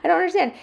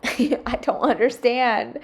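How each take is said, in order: First: Pitched way up in exasperation; high exasperation. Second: Slow, laughing disbelief; laughing exasperation. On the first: Mom exasperated by her family, pitched up high. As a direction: throw it up high in disbelief. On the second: Mom laughing in disbelief at the dirty sink. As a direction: drag it out through a laugh. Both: Real, not acted. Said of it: "Why can't my family do the same?".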